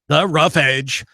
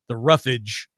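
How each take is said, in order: First: It is said as two separate words. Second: It is run together into one word.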